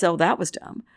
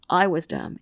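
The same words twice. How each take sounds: First: Oh, that was dumb with the weight on "that"; the word "that" carries the stress. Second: I was dumb with the weight on "I"; the word "I" carries the stress. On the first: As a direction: lean on "that", blaming the act. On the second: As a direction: lean on "I", blaming yourself. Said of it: "but it wasn't". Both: Shown as a demonstration.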